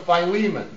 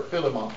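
First: Philemon as fye-LEE-mun; pronounced fye-LEE-mun. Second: Philemon as FILL-uh-mon; pronounced FILL-uh-mon. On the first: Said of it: "or if you prefer". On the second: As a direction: say Philemon with short "fill", stressed first. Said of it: "put the emphasis upon the wrong syllable". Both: Shown as a demonstration.

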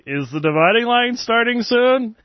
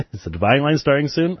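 First: High-pitched, amused parroting; hammed-up, high mimicking of a silly question; teasing mock question. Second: Reading a question through a chuckle; barely held-in laugh; amused read-out. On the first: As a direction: tease them in a much higher voice. Teasing blog readers, parroting their question. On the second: Real, not acted. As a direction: read it out while starting to crack up. Reads chat question, breaking into laughter.

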